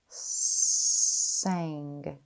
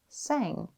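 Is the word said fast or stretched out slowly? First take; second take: stretched; fast. First: The word is stretched out slowly, sound by sound. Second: The word is said quickly as one smooth unit. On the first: "tap and stretch this new sound" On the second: "Say it fast"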